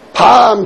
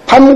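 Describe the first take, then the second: First: The vowel is held long. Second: The vowel is cut short. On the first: It names a chestnut. "길게 발음하면은 먹는 밤이 되는 거고" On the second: It names the night. "짧게 발음하면은 그것이 잠자는 밤이 되는 것이니까"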